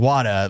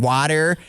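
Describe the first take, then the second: First: It is said with a British-sounding accent. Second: It is said with an exaggerated American accent.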